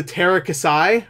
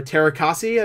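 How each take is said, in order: First: "Terakasai" ending in a "sigh" sound; "Terakasai", final vowel as in sky; alternate pronunciation. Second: "Terakasi" ending in a "see" sound; "Terakasi", final vowel as in tree; alternate pronunciation. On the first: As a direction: say "Terakasai" with the last syllable rhyming with eye. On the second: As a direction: say "Terakasi" with the last syllable rhyming with key. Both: Shown as a demonstration. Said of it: "however it's pronounced".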